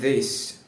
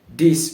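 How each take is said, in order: First: A clear th sound is pronounced. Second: The th sound is replaced by another sound. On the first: The speaker calls it right. "when I pronounce the th sound correctly" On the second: The speaker calls it wrong. "If I don't pronounce the th sound"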